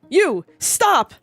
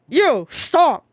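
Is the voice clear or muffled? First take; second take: clear; muffled. First: It is said in a clear, normal voice. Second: It is said in a muffled, distorted voice.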